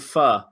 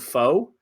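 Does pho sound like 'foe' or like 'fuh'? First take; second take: fuh; foe. First: The word sounds like 'fuh' with a short vowel. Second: The word sounds like 'foe' with a long o. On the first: The speaker calls it right. "it's really" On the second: The speaker calls it wrong. "based on it being pronounced wrong"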